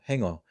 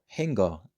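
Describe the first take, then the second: First: The ng stops and goes straight into o. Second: A hard g sound follows the ng before o. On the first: "notice how it is hang o" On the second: "they say hang go"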